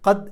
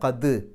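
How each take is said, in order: First: The final d is soft and barely heard. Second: The final d is strong and clearly heard. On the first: The speaker calls it wrong. "ഖദ് എന്ന് പറഞ്ഞാൽ പോരാ" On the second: The speaker calls it right. "ദ് എന്നുള്ളത് വെളിവായി കേൾക്കണം"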